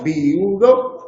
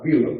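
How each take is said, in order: First: The word is split into three syllables. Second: The word is said in two syllables. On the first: "se puede pronunciar viudo en tres sílabas" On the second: "o en dos sílabas"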